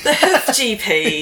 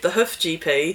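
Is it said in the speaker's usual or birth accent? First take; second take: birth; usual. First: It is said in the speaker's birth accent. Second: It is said in the speaker's usual accent.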